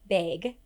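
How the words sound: The word has a strong Midwest vowel.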